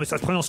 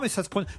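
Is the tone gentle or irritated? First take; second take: irritated; gentle. First: It is said in a sharp, annoyed tone. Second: It is said in a soft, friendly tone. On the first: The correction is made impatiently. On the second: The correction is offered kindly.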